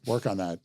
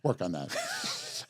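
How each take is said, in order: First: Said in the usual way. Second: Low, slow mock-stern dad voice; imitating annoyed father. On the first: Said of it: "As my father used to say". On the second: Host quoting his father who got mad, mock-stern. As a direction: mutter it softly like a fed-up dad. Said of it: "my father used to say every time he got mad".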